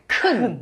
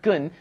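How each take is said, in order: First: The first consonant has a strong breathy burst. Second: The first consonant has no breathy burst. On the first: The speaker calls it right. "you want to say 큰" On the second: The speaker calls it wrong. "not 근"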